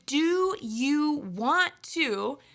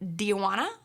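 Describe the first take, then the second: First: Want to is said as two full words. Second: Want to is reduced to wanna. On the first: "changes to"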